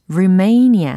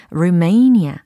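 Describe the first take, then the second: No difference in how they are said.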